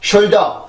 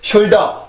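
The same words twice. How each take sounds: Both takes have the same delivery.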